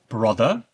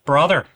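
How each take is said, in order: First: It is spoken in a plain, non-Irish accent. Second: It is spoken in a Northern Irish accent.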